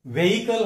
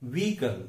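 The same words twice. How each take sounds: First: व्हीकल as VE-hi-kal; h sounded in व्हीकल; wrong pronunciation. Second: व्हीकल as VEE-kul; long ee, silent h in व्हीकल; correct pronunciation. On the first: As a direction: mistaken three-syllable व्हीकल. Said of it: "वो गलत उच्चार है". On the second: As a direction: say व्हीकल without the h. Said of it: "उसका सही उच्चारण". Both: Shown as a demonstration.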